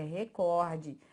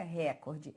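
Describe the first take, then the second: First: Recorde slowed, with COR stressed and stretched. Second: Recorde with the first syllable RE stressed. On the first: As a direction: say recorde as reCORde, open O. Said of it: "é recorde". (recorde com a tônica em COR, devagar) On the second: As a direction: say recorde as REcorde, open E. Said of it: "não é recorde". (recorde com a tônica no RE, como proparoxítona) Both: Shown as a demonstration.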